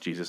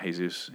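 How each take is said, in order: First: The name is said with English pronunciation. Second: The name is said with Spanish pronunciation. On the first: The speaker calls it right. "who I assume is pronounced Jesus" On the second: The speaker calls it wrong. "not Jesus"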